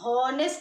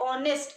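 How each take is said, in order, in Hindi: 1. इस शब्द की शुरुआत h की आवाज़ से होती है। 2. इस शब्द की शुरुआत o की आवाज़ से होती है। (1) "हम हॉनेस्ट नहीं बोलते हैं" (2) "इसका जो प्रोनाउंसिएशन है वो ये है ऑनेस्ट"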